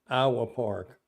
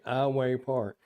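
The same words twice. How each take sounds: First: Iowa ends with an 'uh' sound. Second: Iowa ends with a 'way' sound. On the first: This is how long-time locals say it. "calls it Iowa, like the state" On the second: This is how the speaker used to say it. "I used to say Iowa Park, Iowa, like I W A Y, way"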